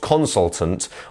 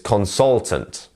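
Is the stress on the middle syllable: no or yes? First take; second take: no; yes. First: The stress is not on the middle syllable. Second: The stress is on the middle syllable. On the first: The speaker calls it wrong. "not consultant" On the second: The speaker calls it right. "It's consultant"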